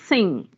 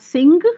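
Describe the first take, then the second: First: The word ends in a nasal sound, no g. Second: The word ends with a clearly pronounced g. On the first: The speaker calls it right. "The g is not clearly pronounced, and the na, it comes through your nose" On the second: The speaker calls it wrong. "the actual pronunciation is not sing"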